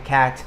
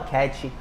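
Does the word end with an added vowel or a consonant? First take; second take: consonant; added vowel. First: The word ends cleanly on the t sound. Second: An extra vowel sound is added after the t. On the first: The speaker calls it right. "quando na verdade é cat" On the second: The speaker calls it wrong. "não fala cat"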